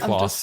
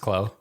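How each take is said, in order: First: The name ends with an s sound. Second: The name ends without an s sound. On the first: The speaker calls it wrong. "you could say Klaus" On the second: The speaker calls it right. "but it's Clo"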